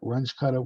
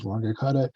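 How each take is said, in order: First: The first part ends in a ch sound. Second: The first part ends in a hard g sound. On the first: This is the form many others use. "which sounds awful to me" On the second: This is how the speaker learned it. "this is what my teachers pronounced it"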